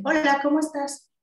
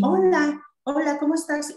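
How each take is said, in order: First: Eco agudo del niño, repite la frase; niño repitiendo. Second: Saludo agudo y alegre a un niño; adulto saludando. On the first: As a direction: imita al niño que repite el saludo en eco. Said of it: "Y el niño te dice". (eco agudo del niño con ecolalia) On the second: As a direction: saluda al niño con voz más aguda y cantarina. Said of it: "el niño la repite". (saludo agudo de terapeuta a un niño) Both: Shown as a demonstration.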